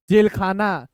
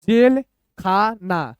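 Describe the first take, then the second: First: Said in the usual way. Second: Slow, pauses between the parts; broken into parts. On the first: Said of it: "ऐसे पढ़ेंगे". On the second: Shown as a demonstration. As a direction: sound it out piece by piece. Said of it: "दो दो अक्षर तोड़ तोड़ के".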